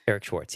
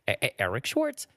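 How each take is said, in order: First: The name is said smoothly, starting only once. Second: The first sound is stuttered like a record scratch.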